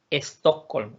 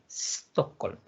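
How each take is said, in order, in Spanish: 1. Se añade un sonido e antes de la s. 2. La palabra empieza directamente con el sonido s. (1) "De decir" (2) "en lugar de decir"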